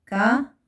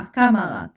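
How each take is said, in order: First: "كاماراد" split into ka, ma, rad; syllable by syllable. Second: Said in the usual way. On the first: Shown as a demonstration. Teacher dictates syllables while writing.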